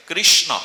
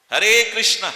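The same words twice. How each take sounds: First: কৃষ্ণ ending in a held short o sound, louder; correct Krishna pronunciation. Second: Hare কৃষ্ণা with a long final a, mocking the foreigners; wrong Krishna-a pronunciation. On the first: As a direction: close কৃষ্ণ on a round o, not aa. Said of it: "অ উচ্চারণ হবে". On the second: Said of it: "শব্দটা হবে হরে কৃষ্ণ". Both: Shown as a demonstration.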